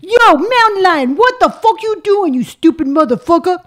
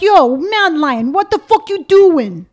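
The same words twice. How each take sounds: First: Loud intimidating New York accent. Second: Slow, raised New York accent; drawn-out New Yorker demo; loud, slow put-on New York accent. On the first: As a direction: make the New Yorker louder and more menacing. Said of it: "But it's not loud and intimidating". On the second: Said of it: "So you're from New York". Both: Shown as a demonstration.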